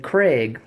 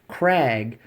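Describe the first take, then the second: First: The vowel sounds like the one in vague. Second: The vowel sounds like the one in bag. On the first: The speaker calls it wrong. "They'll say Craig, like a man's name" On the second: The speaker calls it right. "It is a Krag, K R A G"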